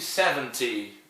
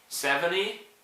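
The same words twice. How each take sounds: First: It is said in a British accent. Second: It is said in an American accent.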